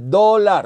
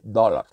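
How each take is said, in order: First: It has a Spanish-style pronunciation with a plain O. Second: It has an English-style pronunciation with an open vowel. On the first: The speaker calls it wrong. "usted no dice dólar, eso está españolizado" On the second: The speaker calls it right. "Es una O con la boca abierta"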